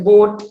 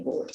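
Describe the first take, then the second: First: Said in the usual way. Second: "boat" said as "woat". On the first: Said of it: "like that". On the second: Shown as a demonstration. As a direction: start "boat" on w instead of b. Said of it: "by the w sound".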